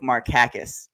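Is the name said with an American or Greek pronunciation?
Greek. The name is said with a Greek pronunciation. This is the name's original pronunciation. The speaker calls it right. "it's actually pronounced Nick Markakis in the Greek"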